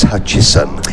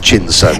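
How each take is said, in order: First: The name has no n sound before the s. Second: The name has an n sound before the s. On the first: The speaker calls it right. "it's Hutchison" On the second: The speaker calls it wrong. "not Hutchinson"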